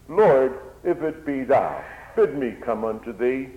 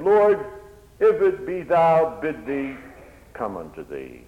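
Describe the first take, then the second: First: Loud eager call to the Lord; urgent plea. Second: Fervent plea. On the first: Peter calls out to the Lord, loud and eager. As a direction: cry out eagerly. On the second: Peter cries to Jesus on the water, loud then fading. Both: Acted.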